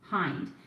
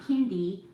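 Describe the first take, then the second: First: The name ends on the final consonant. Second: The name ends with an added 'ee' vowel. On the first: The speaker calls it right. "the correct pronunciation of my last name is Hind" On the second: The speaker calls it wrong. "not Hindi"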